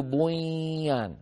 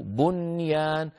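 First: بنيان with N melted into a long nasal Y, buy-yaan; wrongly merged noon. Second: بنيان drawn out as bun-yaan, N fully sounded; clear unmerged noon. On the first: Teacher shows what never to do, بنيان with N merged into Y. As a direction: swallow the N of بنيان into a drawn-out Y. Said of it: "لا نفعل ذلك أبدًا". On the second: Teacher gives the right reading, slow clear N in بنيان. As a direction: keep a distinct N before the Y in بنيان, slowly. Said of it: "ولا نقول بنيان". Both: Shown as a demonstration.

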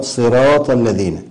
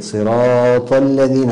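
First: صراط with an unforced, ordinary long ā; natural-length madd. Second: صراط with the ā dragged far too long; overlong alif. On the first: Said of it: "مد الطبيعي دون تكلف". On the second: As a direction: overstretch the alif in صراط, slowly. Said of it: "زيادة المد في الألف". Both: Shown as a demonstration.

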